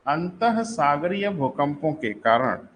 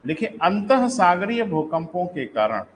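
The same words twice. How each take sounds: First: Each word spaced out slowly for note-taking; slow dictation. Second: Said in the usual way. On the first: Shown as a demonstration. Teacher dictating the definition slowly to students. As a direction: read it slowly so students can write it down.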